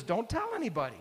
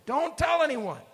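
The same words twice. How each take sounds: First: Said in the usual way. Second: Much higher and louder, forceful warning; aggressive. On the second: Retold or imitated. Jesus warning the disciples, aggressive and forceful. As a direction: snap the order out like a threat. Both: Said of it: "he says it rather aggressively".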